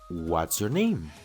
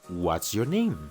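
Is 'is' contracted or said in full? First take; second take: contracted; contracted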